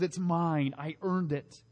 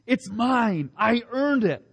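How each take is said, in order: First: Softer, falling aside; quiet. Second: Higher, clinging mock claim; possessive. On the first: Shown as a demonstration. Preacher repeating the selfish claim, quiet and falling. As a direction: let it drop to a murmur. Same words, dropped quietly. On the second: Preacher voicing our selfish pride, mock possessive. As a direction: claim it like a grabby child.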